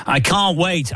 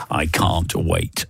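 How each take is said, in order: First: Breathless dramatic line, pitched up; melodramatic line. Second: Said in the usual way. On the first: Acted. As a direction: play it like a soap opera cliffhanger. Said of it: "there's a whole drama in this". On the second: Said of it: "song titles of the last three songs".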